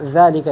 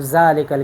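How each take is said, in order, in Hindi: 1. पहली आवाज़ एक नरम ध है। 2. पहली आवाज़ एक भनभनाती हुई ज़ है। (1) "ज़ालिका इसके अपना मखरज है और अपनी सिफ़ात है" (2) "आम लोग कहते हैं ज़ालिकल किताब"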